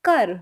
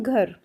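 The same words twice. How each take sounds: First: घर said as "kar", with an unaspirated k; Punjabi pronunciation. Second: घर with a voiced, aspirated gh, as in Hindi; Hindi pronunciation. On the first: Teacher shows learners the Punjabi word, घर pronounced "kar". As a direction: say घर the Punjabi way, k replacing gh. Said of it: "Punjabi में इसको बोलते हैं". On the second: Teacher gives learners the Hindi word, घर with voiced gh. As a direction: say घर the Hindi way, starting on breathy-voiced gh. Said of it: "Hindi में हम बोलते हैं". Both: Shown as a demonstration.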